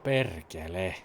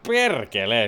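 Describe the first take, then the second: First: It is said in a sad tone. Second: It is said in a happy tone.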